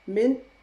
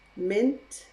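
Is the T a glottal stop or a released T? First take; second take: glottal stop; released T. First: The T is replaced by a glottal stop. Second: The T is fully released as a sound. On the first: "Now I'm going to use a glottal stop for each of them" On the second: "That is using the true T, the T sound"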